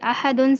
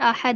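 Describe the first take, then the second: First: The word ends with an n sound. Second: The word ends without an n sound. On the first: The reciter continues without stopping. "पूरे दो पेश की जो तनवीन है वो खत्म हो जाएगी" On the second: The reciter pauses on this word. "अहदुन से अहद हो जाएगा"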